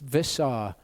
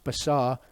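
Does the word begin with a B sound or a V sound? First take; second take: V; B. First: The word begins with a V sound. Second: The word begins with a B sound. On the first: "this doesn't have a dot, so it's visar in this case" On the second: "when you've got a dot in the middle, that letter is pronounced as a B"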